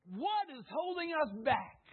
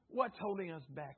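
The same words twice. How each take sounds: First: Emphatic preaching. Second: Said in the usual way. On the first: Acted. Preacher repeats the question twice.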